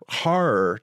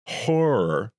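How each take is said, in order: First: The word is said with a non-Canadian vowel. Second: The word is said with a Canadian-style vowel. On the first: This pronunciation sounds vivid. The speaker calls it right. "Horror, to me, is a vivid thing" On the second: This pronunciation sounds soggy. The speaker calls it wrong. "that pronunciation sounds soggy"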